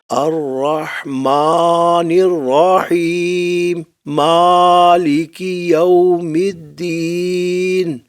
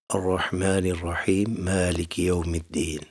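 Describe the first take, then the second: First: It is said in a loud, raised voice. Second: It is said in a soft, conversational voice.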